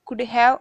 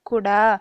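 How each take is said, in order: First: Have is pronounced fully as a separate word. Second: Have shrinks to a short a sound.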